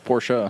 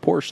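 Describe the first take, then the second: First: It is said the way German speakers say it. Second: It is said the way British speakers say it. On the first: The speaker calls it right. "It's how they pronounce it in Germany" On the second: The speaker calls it wrong. "disappointed that you called it a Porsche"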